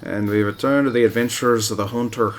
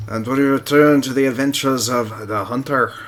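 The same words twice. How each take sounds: First: A missed Aussie attempt that drifts toward Irish; accidental Irish accent. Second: A louder, put-on Aussie narrator voice; Australian accent. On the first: Gamer retrying the Aussie intro, slipping into Irish. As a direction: try the Aussie line again but let it slide Irish. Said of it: "Nope, that's Irish". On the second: Gamer trying an Australian accent on his viewers. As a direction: announce it like an Aussie adventure host. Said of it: "my Australian Aussie accent".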